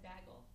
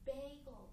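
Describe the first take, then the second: First: The first syllable does not sound like 'bay'. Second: The first syllable sounds like 'bay'. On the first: The speaker calls it wrong. "growing up I always said bagel. And I got made fun of so much" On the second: The speaker calls it right. "it's bagel. Like you go to the bay to get a gull"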